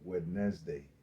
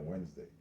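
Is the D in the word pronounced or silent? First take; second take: pronounced; silent. First: The word is said with the D sounded. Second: The word is said with the D silent. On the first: This is how it would sound if said as spelled. "If that was the case, then it would be Wednesday" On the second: This is how it is normally said. "not Wednesday"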